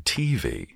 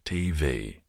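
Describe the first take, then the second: First: The stress is on the first syllable. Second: The stress is on the second syllable. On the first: This is how Americans say it. "you lot over there in America say TV" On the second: This is how the speaker says it. "So the emphasis is on V"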